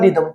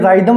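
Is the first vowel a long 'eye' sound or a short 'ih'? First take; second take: ih; eye. First: The first vowel is a short i sound. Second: The first vowel is a long eye sound. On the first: The speaker calls it right. "ये क्या होता है रिदम" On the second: The speaker calls it wrong. "ये ये राइदम नहीं होता"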